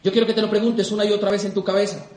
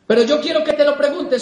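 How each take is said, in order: First: Said in the usual way. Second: "quiero que te lo preguntes" más alto y más fuerte, remarcando "te"; súbelo para insistir; más fuerte y enfático. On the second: Shown as a demonstration. (insistencia en voz alta ante el público) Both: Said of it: "repetición enfática".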